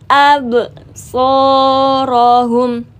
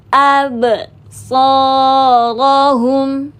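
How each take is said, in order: No difference in how they are said.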